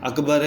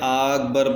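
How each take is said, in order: First: The first vowel is short, not drawn out. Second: The first vowel is long and drawn out. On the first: The speaker calls it right. "अकबर है" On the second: The speaker calls it wrong. "हमज़ा और काफ को खींच के पढ़ दिया"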